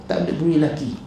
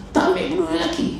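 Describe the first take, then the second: First: Said in the usual way. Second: "Tak ambil peduli lelaki" said much higher, mocking. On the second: Shown as a demonstration. Speaker mocking a woman ignoring her husband, pitched high.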